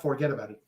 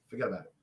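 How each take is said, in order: First: "forget about it" as separate words. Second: "Forget about it" run together, low; one word. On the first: Co-host showing the wrong way, "forget about it" as separate words. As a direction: say "forget about it" word by word, spelled out. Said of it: "It's not forget about it". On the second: Co-host correcting the accent, "Forget about it" as one word. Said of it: "It's one word". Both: Shown as a demonstration.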